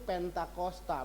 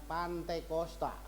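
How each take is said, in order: First: The first syllable is 'pen', then 'ta'. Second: The first syllable is 'pan', then 'te'. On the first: The speaker calls it right. "yang betul Pentakosta" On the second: The speaker calls it wrong. "bukan Pantekosta"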